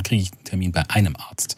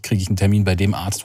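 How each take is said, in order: First: EINEM picked out, falling away after; stress on einem. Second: DEM picked out before Arzt; stress on dem. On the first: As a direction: lean on "einem" to mean any doctor at all. Contrasts any doctor with that doctor. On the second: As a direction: lean on "dem" to mean that particular doctor. Contrasts that doctor with any doctor. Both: Real, not acted.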